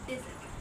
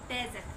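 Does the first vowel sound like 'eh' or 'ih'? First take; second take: ih; eh. First: The first vowel sounds like 'ih'. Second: The first vowel sounds like 'eh'. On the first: The speaker calls it right. "इसको बोलते हैं डिजर्ट" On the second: The speaker calls it wrong. "पर ये डेजर्ट नहीं होता"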